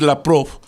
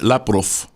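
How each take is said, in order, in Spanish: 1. El nombre termina con sonido v. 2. El nombre termina con sonido f. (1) "en vez de decir" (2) "lo pronuncias como F"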